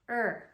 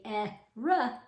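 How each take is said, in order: First: One blended sound is said as a unit. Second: Two separate letter sounds are said apart. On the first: The speaker calls it right. "they say er" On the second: The speaker calls it wrong. "E and the R don't say eh, r"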